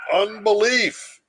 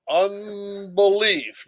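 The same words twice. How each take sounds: First: "Unbelief" called out high and loud, then falling; stress on Unbelief. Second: "unbelief" drawn out slowly, high with a falling end; slow stressed unbelief. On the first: The lecturer names sin's root to the class with a loud, high "Unbelief". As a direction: punch "Unbelief" as the key word. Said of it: "keyword after Calvin quote". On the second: The lecturer ends the Luther quote with a slow, drawn-out "unbelief". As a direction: stretch out "unbelief" for weight. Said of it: "end of Luther quote". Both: Shown as a demonstration.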